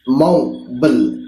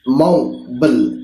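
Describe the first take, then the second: First: It is said with an American pronunciation. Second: It is said with an American pronunciation.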